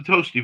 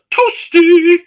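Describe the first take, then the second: First: Said in the usual way. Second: High, drawn-out "toasty" squeal. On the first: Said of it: "you're in the toasty voice". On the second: Retold or imitated. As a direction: sing out "toasty" in a very high put-on voice. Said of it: "you got the toasty voice".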